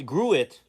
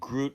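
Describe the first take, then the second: First: It is said as two syllables, grew-it. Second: It is said as one syllable, groot. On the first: The speaker calls it right. "G R E W dash I T, Gruit" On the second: The speaker calls it wrong. "not uh Groot like the um, Guardians of the Galaxy character, which I made the pronunciation mistake"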